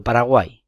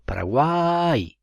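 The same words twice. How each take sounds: First: Said in the usual way. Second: Slow Paraguay, the a in the centre carries the weight; stress on the middle vowel. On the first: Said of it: "Por ejemplo". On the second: Shown as a demonstration. Teacher showing students the stressed centre of Paraguay, slow and deliberate. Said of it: "el golpe de voz".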